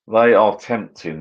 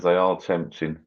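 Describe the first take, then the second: First: They are tempting drawn out slowly, THEY leaned on; slow stressed musing. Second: Said in the usual way. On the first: Shown as a demonstration.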